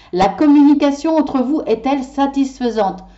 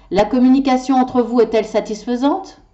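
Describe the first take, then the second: No difference in how they are said.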